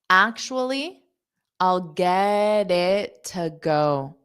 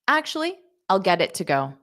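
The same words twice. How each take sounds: First: The sentence is spoken slowly. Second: The sentence is spoken quickly. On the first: "Now I'll say it slow" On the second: "Now fast"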